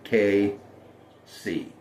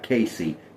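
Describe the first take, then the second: First: It is said as two separate letters. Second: It is said as one run-together name. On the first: The speaker calls it right. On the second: The speaker calls it wrong. "Not Casey"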